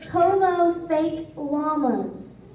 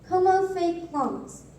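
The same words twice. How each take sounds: First: It is said slowly. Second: It is said at normal speed.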